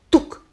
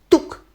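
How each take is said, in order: No difference in how they are said.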